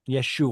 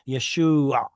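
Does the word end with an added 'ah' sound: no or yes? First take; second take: no; yes. First: The word ends without any 'ah' sound. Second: The word ends with an audible 'ah' sound. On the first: This is how it was said in Galilee. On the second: This is how it was said in Judea.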